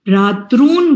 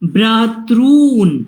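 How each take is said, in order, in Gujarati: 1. ri સ્વર એક ટૂંકી માત્રા જેટલો ખેંચાય છે. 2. ri સ્વર બે માત્રા જેટલો ખેંચાય છે. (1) "તમે ભ્રાતૃન બોલો તો એક માત્રા થાય" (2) "બે માત્રા બોલાવી જોઈએ"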